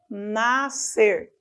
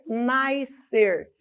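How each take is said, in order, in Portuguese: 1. Não há glide 'i' antes do s. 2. Existe um glide 'i' antes do s. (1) "Mas o correto é nascer" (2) "costuma-se dizer nascer"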